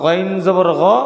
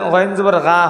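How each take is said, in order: First: The final vowel is a rounded 'o' sound. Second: The final vowel is an open 'a' sound. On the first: The speaker calls it right. "আকার উচ্চারণ হবে না, ওকার উচ্চারণ হবে" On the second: The speaker calls it wrong. "আকার হিসেবে"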